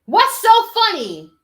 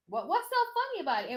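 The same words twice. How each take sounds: First: Slow, loud, high and indignant; indignant demand. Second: Much softer, faster, half to herself; soft, quick repeat. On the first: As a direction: stretch it out, demanding an answer. Indignant at the laughing interviewer. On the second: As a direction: mutter it quickly, still baffled. Asks again, much softer. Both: Real, not acted.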